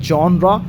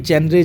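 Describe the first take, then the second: First: The word starts with a 'zhaw' sound. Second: The word starts with a 'jeh' sound. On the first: The speaker calls it right. "जॉनरा पढ़ा जाएगा" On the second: The speaker calls it wrong. "ना कि जेनरे छेनरे ऐसे नहीं पढ़ा जाएगा"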